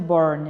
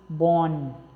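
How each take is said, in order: First: The R sound is clearly pronounced. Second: The R is dropped, British style.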